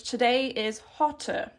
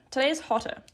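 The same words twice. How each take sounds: First: Today is hotter, spoken slowly and evenly; slow model sentence. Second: Said in the usual way. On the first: Shown as a demonstration. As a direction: lay out today is hotter word by word for learners. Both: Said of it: "we would probably say in English".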